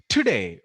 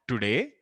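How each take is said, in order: First: The t has a strong burst of breath. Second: The t has no burst of breath. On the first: This is the English t. The speaker calls it right. "I'm again creating an explosive way of, you know, breathing the air out" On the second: This is the t of Telugu or Hindi. The speaker calls it wrong. "That's not the ta that we say in Telugu or Hindi"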